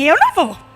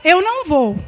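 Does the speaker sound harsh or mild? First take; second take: harsh; mild. First: It is said in a harsh, curt tone. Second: It is said in a mild, friendly tone. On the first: The speaker is refusing with annoyance or defiance. "Aí o outro entende que você fala assim" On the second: The speaker is simply declining without any hostility. "Você fala assim"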